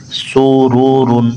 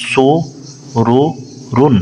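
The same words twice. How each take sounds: First: Said in the usual way. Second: Drawn-out model reading. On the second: Shown as a demonstration. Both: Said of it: "পেশ উচ্চারণ করার সময় ঠোঁট গোল হবে".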